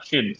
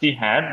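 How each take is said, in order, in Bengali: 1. শব্দ দুটো সংকুচিত হয়ে একটা সিলেবলে বলা হয়। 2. দুটো শব্দই পুরোপুরি বলা হয়। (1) "উইল বিকাম শিড" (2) "উইল বিকাম"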